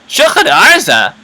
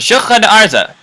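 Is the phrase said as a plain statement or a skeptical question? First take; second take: skeptical question; plain statement. First: It is said as a doubtful, sarcastic question. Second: It is said as a plain, neutral statement. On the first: It does not like the answer very much. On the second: It simply gives the answer.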